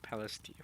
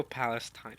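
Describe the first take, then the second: First: Palestine ending in "-steen"; chosen pronunciation. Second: Palestine ending in "-stine"; alternative pronunciation. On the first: Streamer choosing his Palestine, ending "-steen". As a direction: say Palestine as PAL-es-teen. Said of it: "gonna go with Palestine". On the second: Streamer allowing the other Palestine, ending "-stine". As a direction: say Palestine as PAL-es-tine, long i. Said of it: "Or I could go". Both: Shown as a demonstration.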